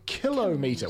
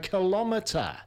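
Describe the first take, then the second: First: The stress is on the first syllable. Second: The stress is on the second syllable. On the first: The speaker calls it right. "We say a kilometer" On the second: The speaker calls it wrong. "We don't say a kilometer"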